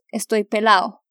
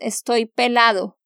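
First: The d in pelado is dropped, Colombian style. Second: The d in pelado is clearly pronounced.

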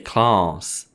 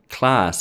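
First: The word is said in a British accent. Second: The word is said in a non-British accent.

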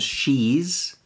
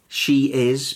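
First: It is said as one contracted syllable. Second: It is said as two full words. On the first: "She is becomes she's" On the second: "She is becomes she's"

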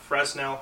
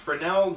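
First: The middle s sound is pronounced. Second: The middle s sound is silent. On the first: The speaker calls it wrong. "not Fresnel, however it's spelled" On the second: The speaker calls it right. "that's pronounced Fresnel"

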